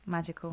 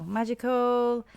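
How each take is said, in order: First: "Magical." said much softer, barely above a breath; hushed. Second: "Magical." stretched out slowly at normal volume; drawn out. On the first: Fan overcome by the song, saying "Magical." in a hush. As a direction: breathe "Magical." softly in awe. Repeats the word, awed. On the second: Fan relishing the song, drawing "Magical." out slowly. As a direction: savour "Magical." slowly, letting each syllable linger. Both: Real, not acted.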